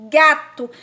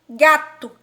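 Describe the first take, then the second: Both takes have the same delivery.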